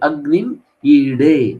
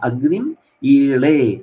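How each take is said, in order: First: The second word has a D-like consonant. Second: The second word has an L-like consonant. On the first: This is how many others say it. "മറ്റു പലരും ... അഗ്നി ഈടേ എന്ന് പറയാറുണ്ട്" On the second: This is how it is said in Kerala. "കേരളത്തിൽ നമ്മൾ അതിനെ ഉച്ചരിക്കുന്നത് ഈളെ എന്നാണ്"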